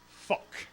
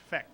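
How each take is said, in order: First: The vowel is the 'uh' sound. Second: The vowel is the 'eh' sound. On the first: This is how people in the city really say it. The speaker calls it right. "the one word people don't mess up is fuck" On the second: This is how the film's actors say it. The speaker calls it wrong. "everybody with a Boston accent apparently says feck"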